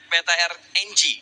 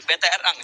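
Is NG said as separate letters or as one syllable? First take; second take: letters; one syllable. First: NG is spelled out as two letters. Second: NG is said as one syllable, eng. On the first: "kata Koet" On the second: "Tapi kalau kata Sanskuy"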